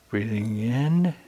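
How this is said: It sounds unsure and hesitant.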